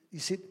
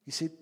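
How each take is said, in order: Both takes have the same delivery.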